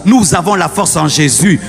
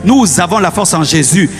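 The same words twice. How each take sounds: The two takes are said the same way.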